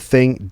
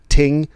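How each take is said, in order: First: The word begins with a TH sound. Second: The word begins with a T sound.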